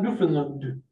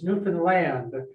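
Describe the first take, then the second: First: The last syllable is a reduced 'lund'. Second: The last syllable is a full 'land'. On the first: The speaker calls it wrong. "not Newfoundland. There's the Lund" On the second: The speaker calls it right. "It's Newfoundland, it rhymes with understand"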